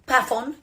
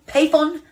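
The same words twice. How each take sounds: First: Pafon said PAF-on, short A; trying a pronunciation. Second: Payphone said PAY-fon, long A; trying a pronunciation. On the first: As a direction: say Pafon with the vowel of cat. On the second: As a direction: say Payphone with the vowel of day. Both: Shown as a demonstration. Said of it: "However I'm to pronounce this".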